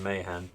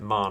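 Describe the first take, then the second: First: The name is said as two syllables, like Mahan. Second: The name is said as one syllable, like Marne. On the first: This is the way many other people say the name. The speaker calls it wrong. "rather than Mahan" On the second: This is the way the speaker says the name. The speaker calls it right. "which is why I pronounce it Marne"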